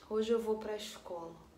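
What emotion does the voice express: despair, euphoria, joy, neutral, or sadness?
sadness. It is said in a sad, downcast tone. "Ou de tristeza"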